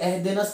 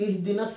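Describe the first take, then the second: First: The first vowel is an 'e' sound. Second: The first vowel is a clear 'i' sound. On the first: The speaker calls it wrong. "बल्कि एहदिनस पढ़ते हैं" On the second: The speaker calls it right. "नहीं"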